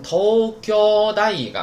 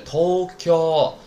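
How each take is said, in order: First: Tokyo大学 as one slow word, high and loud through to "da", then falling; compound pitch accent. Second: Tokyo in Japanese, tōkyō, slow with long level vowels; standalone pitch accent. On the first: Teacher joins the two words, compound pitch accent. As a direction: keep tōkyō-daigaku up high in one arc for Tokyo大学. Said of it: "但是连上之后音调变了，变成". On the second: Teacher gives Tokyo by itself, standalone pitch accent. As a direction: draw out both o's of Tokyo as a word alone. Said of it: "但是连上之后音调变了". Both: Shown as a demonstration.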